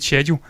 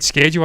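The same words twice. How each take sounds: First: It is said with a British pronunciation. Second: It is said with an American pronunciation. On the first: "I said schedule" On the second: "he said schedule"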